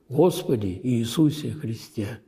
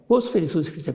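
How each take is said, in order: First: It is said slowly, each word given attention. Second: It is said quickly, the words rattled off. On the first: The prayer is said attentively, from the heart. The speaker calls it right. "Неспешно... произноси молитву с вниманием каждому слову" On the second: The prayer is recited mechanically, without attention. The speaker calls it wrong. "А не так"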